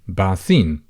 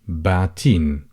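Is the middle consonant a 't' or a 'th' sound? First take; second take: th; t. First: It is said with a 'th' sound. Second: It is said with a 't' sound.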